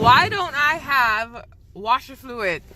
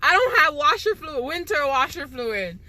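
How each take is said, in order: First: Drawn-out, deadpan punchline question; slow joke setup. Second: Emphatic complaint. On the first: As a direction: let it land slowly like a joke. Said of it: "you wanna hear a joke?". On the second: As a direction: punch the word don't in disbelief. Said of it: "Yo, listen, okay?". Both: Real, not acted.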